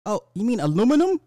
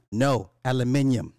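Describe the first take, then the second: First: High, loud surprised correction; imagined store clerk. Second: "aluminium" firmly with stress on "min"; insistent British pronunciation. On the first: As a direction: play a clerk who finally gets it, pitched up. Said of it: "the clerk or whatever". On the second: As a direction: correct the clerk with "aluminium", al-yoo-MIN-ium. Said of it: "you ask the". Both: Pretend.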